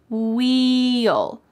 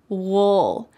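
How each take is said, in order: First: It is said clearly with a full 'ee' vowel. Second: It is reduced and relaxed, sounding like 'wool'. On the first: "You can say this contraction very clearly" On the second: "we often reduce this in a relaxed way, and we say wool"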